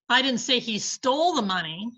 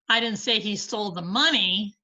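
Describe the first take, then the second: First: The stress falls on the word stole. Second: The stress falls on the word money. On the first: He has it but may not have taken it. "but he has the money" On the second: He took something other than the money. "but he stole something"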